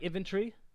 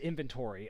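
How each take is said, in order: First: The word is said with an Australian pronunciation. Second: The word is said with an American pronunciation. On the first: The speaker calls it right. "let's go with the more Australian one" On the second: The speaker calls it wrong. "The American way is"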